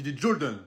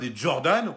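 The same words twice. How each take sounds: First: Jordan is said with an American accent. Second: Jordan is said with a plain French accent. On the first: The speaker calls it right. "Il faut dire l'accent américain un petit peu" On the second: The speaker calls it wrong. "on dit pas"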